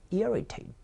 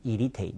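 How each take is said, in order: First: Irritate as "EAR-i-tate", first syllable high; corrected pronunciation. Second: Irritate as "ee-ri-tei", no r in the first syllable; wrong model of irritate, pure ee opening; mispronunciation. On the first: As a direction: lift and stress the r-coloured EAR in Irritate. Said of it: "No, no, no". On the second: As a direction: say irritate with a plain Korean "i-ri". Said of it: "그렇게 안 하신 분". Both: Shown as a demonstration.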